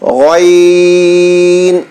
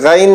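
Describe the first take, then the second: First: The letter name is said heavy, lips slightly rounded. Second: The letter name is said thin, without rounding. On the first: The speaker calls it right. "इस तरह मोटा पढ़ना है" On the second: The speaker calls it wrong. "गैन नहीं बोलना"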